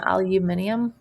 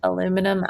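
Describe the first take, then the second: First: Aluminium with five syllables, al-yoo-MIN-ee-um; British style aluminium, stress on MIN; British pronunciation. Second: Said in the usual way. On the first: Shown as a demonstration. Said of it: "in England they pronounce". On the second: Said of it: "they pronounce aluminum".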